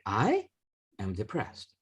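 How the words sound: The stress falls on the first word. "you change up the first one"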